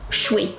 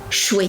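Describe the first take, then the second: First: The words are squeezed into one quick syllable. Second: The same.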